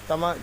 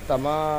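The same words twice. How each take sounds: First: The final vowel is short and quick. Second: The final vowel is drawn out long. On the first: "जल्दी पढ़ेंगे, खींचेंगे नहीं" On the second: "अब हम खींच कर पढ़ेंगे"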